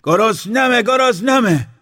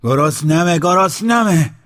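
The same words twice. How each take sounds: First: A much higher, piercing scream of hunger; a shrieking hungry scream; screaming louder. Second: Loud, high shout of hunger; a demanding hungry yell. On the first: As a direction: scream it at the top of the voice. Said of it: "بلندتر فریاد کشید". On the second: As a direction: shout both words, rising. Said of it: "داد زد". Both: Acted.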